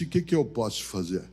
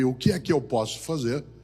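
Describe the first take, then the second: First: The voice trails off at the end. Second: The voice rises at the end.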